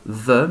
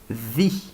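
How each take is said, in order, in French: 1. Il se prononce sous sa forme devant consonne. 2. Il se prononce sous sa forme devant voyelle. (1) "the ne se prononcera pas the" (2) "mais the animal"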